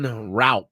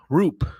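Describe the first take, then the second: First: The vowel sounds like 'ow', as spelled. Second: The vowel sounds like 'oo' in 'loop'. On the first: The speaker calls it wrong. "been calling him Raup because it looks like that" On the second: The speaker calls it right. "It's actually Roop. R O O P"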